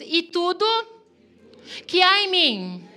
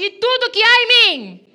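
First: It is said at normal, quieter volume. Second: It is said louder and more forcefully.

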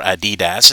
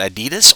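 First: The name is said in a British way. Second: The name is said in an American way.

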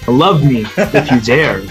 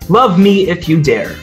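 First: It is said in a dark, menacing tone. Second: It is said in a plain, neutral tone.

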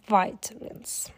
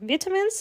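First: It is said in an American accent. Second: It is said in a British accent. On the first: "а на американском" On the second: "на британском"

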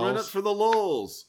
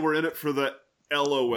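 First: LOL is said as a single word. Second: LOL is spelled out as separate letters. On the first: The speaker calls it right. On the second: The speaker calls it wrong.

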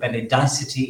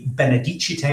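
First: The word is said with an English pronunciation. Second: The word is said with a Latin pronunciation.

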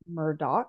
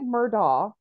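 First: The name is said unlike its spelling. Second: The name is said the way it is spelled. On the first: "the actual pronunciation is Murdaugh" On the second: "so it looks like Murdaugh"

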